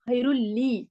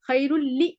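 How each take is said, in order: First: The final vowel is said long. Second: The final vowel is said short. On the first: The speaker calls it right. "लाम या, या ही मद्दा है" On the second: The speaker calls it wrong. "खैरुल ली नहीं पढ़ना है"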